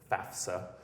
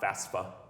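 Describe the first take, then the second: First: The F sound comes before the S sound. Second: The S sound comes before the F sound. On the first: The speaker calls it right. "love it when people pronounce it FAFSA" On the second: The speaker calls it wrong. "not FAFSA"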